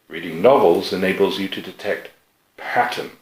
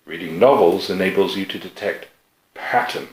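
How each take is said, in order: First: The word patterns carries the main stress. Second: The word patterns carries the main stress.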